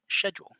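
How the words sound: It is said with a British pronunciation. "is how they say it"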